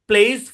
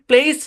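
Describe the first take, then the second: First: The word ends with a voiced z sound. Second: The word ends with a voiceless s sound. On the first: The speaker calls it right. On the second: The speaker calls it wrong.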